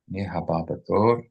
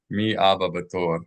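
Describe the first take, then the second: First: An h sound is pronounced before 'aba'. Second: No h sound is pronounced before 'aba'. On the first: Asks who is next in line. The speaker calls it right. "With the hey" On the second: Asks who the father in line is. The speaker calls it wrong. "without the hey"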